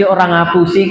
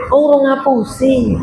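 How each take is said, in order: First: Said in the usual way. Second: An exaggerated "Oh, orang ngapusi." as if suddenly remembering; mock realization. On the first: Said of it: "Biasa ngapusi". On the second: Shown as a demonstration. Preacher mocking a liar who misses lying, with mock surprise. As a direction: play "orang ngapusi" as the thing missing from life, a sudden aha. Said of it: "Apa ya?".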